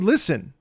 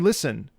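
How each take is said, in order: First: The word is said bigger, with extra emphasis. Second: The word is said with ordinary emphasis.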